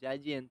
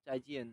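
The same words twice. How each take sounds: First: "জাইজিয়েন" with a voiced j at the start. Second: "চাইজিয়েন" with an unvoiced ch at the start. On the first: Teacher giving the first option, "জাইজিয়েন" with voiced j. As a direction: begin "জাইজিয়েন" on a voiced জ sound. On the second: Teacher giving the other option, "চাইজিয়েন" with ch. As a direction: begin "চাইজিয়েন" on an unvoiced চ sound. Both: Shown as a demonstration. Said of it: "জেতে জ অথবা চ উচ্চারণ করা যায়".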